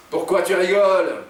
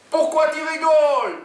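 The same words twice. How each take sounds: First: Raised, higher, louder demand; yelling. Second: Very high-pitched loud demand; high yelling. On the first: Jean confronts the laughing woman, yelling. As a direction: snap the question out loudly. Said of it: "hurle Jean". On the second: Oumar takes his turn at the laughing woman, yelling. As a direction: yell it in a high sidekick voice. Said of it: "hurle Oumar à son tour". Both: A narrator's reading.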